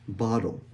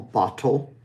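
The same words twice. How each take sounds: First: The T is a quick tap like a D. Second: The T is a fully released, clear T. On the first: "It kind of sounds like a D, but it's actually the flapped T" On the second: "which is very, very um, formal"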